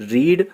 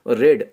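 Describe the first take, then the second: First: The vowel is long, like 'reed'. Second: The vowel is short, like 'red'. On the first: "कभी रीड पढ़ा जाता है" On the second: "और कभी रेड"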